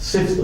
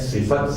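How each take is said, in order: First: The f and t run together with no vowel. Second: A short vowel is heard between f and t. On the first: The speaker calls it wrong. "सिफ्त गलत है" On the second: The speaker calls it right. "सिफत सही है"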